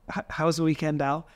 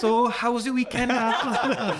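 First: It is said in the speaker's ordinary accent. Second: It is said in a North Welsh accent.

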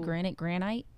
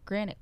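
First: The last syllable sounds like "ite" in bite. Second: The last syllable sounds like "it". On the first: The speaker calls it wrong. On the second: The speaker calls it right.

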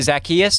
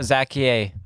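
First: The name is said in full length. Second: The name is said in shortened form. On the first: The speaker calls it right. "it's actually Zacchaeus" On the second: The speaker calls it wrong. "I shortened it up a little bit"

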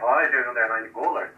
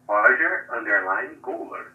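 First: It is said at normal speed. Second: It is said slowly and deliberately.

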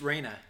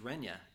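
First: The name is said as Reyna. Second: The name is said as Renya. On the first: The speaker calls it right. "It's Reyna" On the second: The speaker calls it wrong. "A lot of people pronounce it as Renya"

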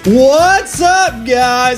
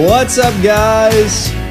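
First: It is said with high, excited energy. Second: It is said with low, flat energy.

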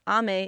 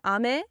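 First: The pitch is high first, then falls. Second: The pitch is low first, then rises. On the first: It means rain. "ame is rain" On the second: It means candy or sweets. "ame is like sweets"

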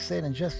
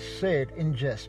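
First: The phrase is spoken at a quicker pace. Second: The phrase is spoken at a slower pace.

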